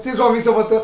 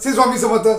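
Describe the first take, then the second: Both takes have the same delivery.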